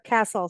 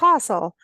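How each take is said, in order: First: It is said in an American accent. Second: It is said in an English accent. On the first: "now here castle" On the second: "a little bit of England was castle"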